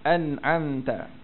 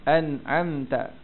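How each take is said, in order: The two takes are said the same way.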